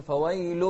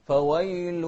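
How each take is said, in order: First: فويل with an open a vowel, wrong; فويل said fawal; فويل mispronounced; wrong pronunciation. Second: فويل with the diphthong ei; فويل said feweil; فويل recited correctly; correct pronunciation. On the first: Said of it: "لا". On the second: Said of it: "ما نقول فويل". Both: Shown as a demonstration.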